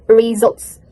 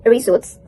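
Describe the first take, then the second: First: "results" with a voiced Z, ree-ZULTS; correct results. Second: "results" with S in place of Z, ree-SULTS; mispronounced results. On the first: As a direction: model "results" with a buzzing Z. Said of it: "this must be spelled like results". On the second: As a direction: say "results" with a voiceless S. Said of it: "Because I read results". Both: Shown as a demonstration.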